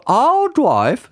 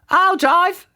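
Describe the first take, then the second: First: Louder, insistent vicar voice; the other bride wanting to drive; Reverend Judith. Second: High eager auntie claiming the wheel; a bride keen to drive first; Auntie Flip. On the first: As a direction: insist over the auntie. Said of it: "said Reverend Judith". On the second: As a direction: grab the keys as the auntie. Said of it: "said Auntie Flip". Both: A narrator's reading.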